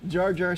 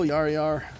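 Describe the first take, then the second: First: The name begins with an English J sound. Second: The name begins with a Y sound.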